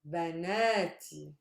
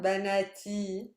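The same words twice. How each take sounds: First: The stress is on the middle syllable. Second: The stress is not on the middle syllable. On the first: The speaker calls it right. "I'm stressing the na" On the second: The speaker calls it wrong. "Not banati"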